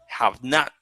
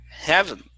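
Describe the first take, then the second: First: Two full separate words are said. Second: The words are joined into one contracted word.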